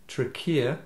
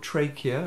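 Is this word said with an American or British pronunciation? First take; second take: British; American. First: It is said with a British pronunciation. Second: It is said with an American pronunciation. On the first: "called the trachea in English" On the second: "if it used the American pronunciation"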